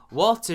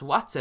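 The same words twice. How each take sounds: First: It is said in a standard British accent. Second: It is said in a heavy Lake District accent.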